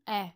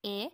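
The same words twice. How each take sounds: First: "E" dit ouvert, comme « è ». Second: "E" dit fermé, comme « é ». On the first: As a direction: prononce "E" plus ouvert, en è. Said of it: "le E avec accent grave". (« E » ouvert, accent grave) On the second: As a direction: prononce "E" bouche peu ouverte, en é. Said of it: "Le E a deux prononciations possibles". (« E » fermé, accent aigu) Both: Shown as a demonstration.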